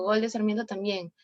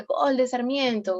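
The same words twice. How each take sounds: First: Said in the usual way. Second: Slow, higher and louder, like calling a goal. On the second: Shown as a demonstration. Teacher demos a goal call for the class, in mild announcer style. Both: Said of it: "nadie te está diciendo todo ese relato".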